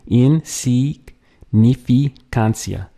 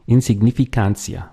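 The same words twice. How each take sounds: First: Insignificancia drawn out slowly, syllable by syllable; slow syllable demo. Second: Said in the usual way. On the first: Shown as a demonstration. Teacher slowly breaking down Insignificancia, syllable by syllable. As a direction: stretch out every syllable of Insignificancia. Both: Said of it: "a lot of syllables to get through".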